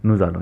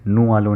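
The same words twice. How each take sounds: First: नूजालों said as one run, z linking नू and आलों; नूजालों joined smoothly with a z; right liaison. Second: नू आलों said as two words with no z between; नू आलों, a break and no linking sound; wrong liaison shown. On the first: Teacher giving students the correct linked form, नूजालों with z. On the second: Teacher showing students the wrong split, नू आलों with no link. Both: Shown as a demonstration. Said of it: "नू आलों नहीं पढ़ेंगे".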